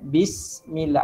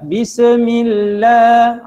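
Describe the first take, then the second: First: The s sound is held with a soft hiss. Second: The s sound is bounced with a release. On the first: The speaker calls it right. "Ada sedikit desiran" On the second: The speaker calls it wrong. "janganlah baca pula bismillah. Ha, tak boleh"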